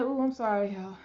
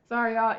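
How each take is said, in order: First: Said in the usual way. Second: Sorry through a real laugh; breathless laughing sorry; laughing apology. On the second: Real, not acted. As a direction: giggle out the apology. Laughing apology after catching breath.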